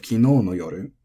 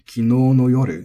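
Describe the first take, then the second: First: Kino no yoru with its usual accent kept; standard pitch. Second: Kino no yoru said with no flattened; accent lost on no. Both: Shown as a demonstration. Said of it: "instead of".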